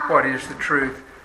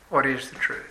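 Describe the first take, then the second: First: It is said in a sincere, earnest tone. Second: It is said in a sarcastic, haughty tone.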